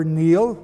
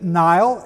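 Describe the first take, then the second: First: "Neil" with a long EE vowel; modern pronunciation. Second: "Niall" with a long I, like Nile; older pronunciation. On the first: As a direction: say "Neil" to rhyme with "kneel". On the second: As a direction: say "Niall" to rhyme with "mile". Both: Shown as a demonstration. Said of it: "pronounced today".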